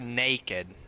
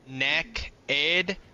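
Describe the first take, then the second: First: The first syllable sounds like 'nay'. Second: The first syllable sounds like 'neck'. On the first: "Neck-ed or naked?" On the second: "Neck-ed or naked?"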